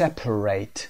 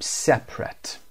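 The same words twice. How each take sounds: First: The last syllable is full, like 'rate'. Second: The last syllable is reduced, like 'rit'. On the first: The word is used as a verb. "تلفظ وربش به این حالت هست" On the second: The word is used as an adjective. "separate رو به عنوان adjective کار کردیم"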